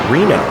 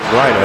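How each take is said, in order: First: The first vowel sounds like 'ee'. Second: The first vowel sounds like 'eye'. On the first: The speaker calls it right. "It's actually pronounced Reno" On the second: The speaker calls it wrong. "We've been pronouncing it Rhino"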